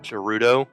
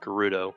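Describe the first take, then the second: First: The G is soft, as in germ. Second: The G is hard, not as in germ. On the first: The speaker calls it wrong. "I just pronounce it the same way you pronounce germ" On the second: The speaker calls it right. "it actually is Gerudo"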